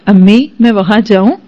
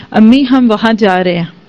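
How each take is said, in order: First: Sweetly asking permission. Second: A touch of loving sweetness, lightly retold; lovingly said. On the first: Shown as a demonstration. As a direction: ask mother gently as a humble daughter-in-law. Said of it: "آئندہ اگر تم یہ ایسے بولو نا". (ادب سے اجازت مانگتے ہوئے نرم لہجہ) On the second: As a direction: say it gently, with affection, to mother-in-law. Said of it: "بڑے پیار سے اس نے بولا". (پیار سے، ہلکا سا نرم لہجہ)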